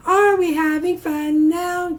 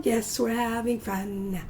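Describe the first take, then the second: First: Higher, louder teacher call; rally the class with a bright question; upbeat call to the kids; cheery call. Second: Said in the usual way. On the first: Shown as a demonstration. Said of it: "repeated call to class". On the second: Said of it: "answers her own call".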